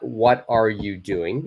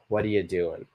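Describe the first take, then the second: First: Each word is said separately and fully. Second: The words are joined together smoothly. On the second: "so it's what are you doing?"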